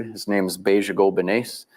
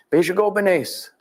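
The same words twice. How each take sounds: First: Said in the usual way. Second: Name called high and slow, drawn out; ceremonial name call. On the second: Shown as a demonstration. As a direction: sing out the hunter's name as you offer the spoon. Ritual offering of food, calling name.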